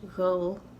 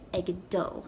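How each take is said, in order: First: The d sound is soft, almost not heard. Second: The d sound is clearly pronounced. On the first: "almost as if the D isn't being pronounced" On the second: "I'm going to be pronouncing it egdo"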